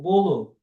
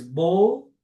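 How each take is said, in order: First: Bolo in two syllables with a full last O; final vowel sounded. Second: Bolo cut to one syllable, bol, ending on L; bare final L. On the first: Teacher offers the other form, final vowel sounded. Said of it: "tanto faz bolo ou bolo". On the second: Teacher says either form works, final L only. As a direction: say bolo without its last vowel. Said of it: "do verbo bolo". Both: Shown as a demonstration.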